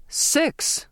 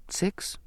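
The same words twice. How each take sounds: First: High-pitched shocked exclamation; shouted. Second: Soft, almost whispered; uncertain guess. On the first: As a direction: burst out in disbelief. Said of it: "the captain shouted". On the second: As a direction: offer it timidly, under the breath. Girl guesses uncertainly to captain. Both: A narrator's reading.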